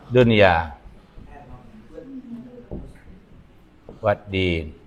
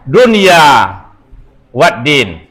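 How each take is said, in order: First: The phrase is said with more weight. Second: The phrase is said lightly, without weight. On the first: The speaker calls it right. "Lebih berbobot dua titik asko" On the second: The speaker calls it wrong. "Siko dia gi salah dua titik"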